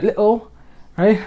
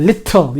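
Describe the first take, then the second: First: Imitated British little, t swallowed; glottal-stop little, UK style; UK accent. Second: Little with a hard, sounded t; hitting the t. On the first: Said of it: "U Kers, they go". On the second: Shown as a demonstration. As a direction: hit the t clearly in little. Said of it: "you're actually hitting it".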